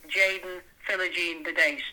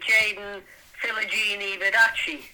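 First: The name is given a plain, non-Italian pronunciation. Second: The name is given an Italian-sounding pronunciation. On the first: "that's what I will call him" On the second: "has sort of made it a bit Italian"

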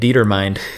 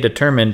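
First: It is said as die-ter-mind, like 'die' plus 'mind'. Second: It is said with the usual pronunciation, deh-TER-mind. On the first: The speaker calls it wrong. "in my head, I was pronouncing it Dietermind" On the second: The speaker calls it right. "I've heard people say determined in real life"

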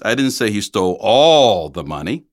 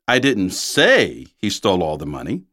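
First: The stress is on the word all. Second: The stress is on the word say.

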